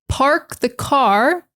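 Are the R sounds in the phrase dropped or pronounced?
pronounced. The R sounds are clearly pronounced. This is the ordinary non-Boston way. "they don't say park the car"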